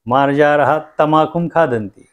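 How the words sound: 'Tam' and 'akhum' run together as one word. Cats eat tobacco.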